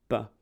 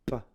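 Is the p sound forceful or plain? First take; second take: plain; forceful. First: The p sound is soft and ordinary. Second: The p sound is pushed out with force. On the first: "on va commencer par faire pa, pi" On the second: "Ensuite on va accentuer l'épée"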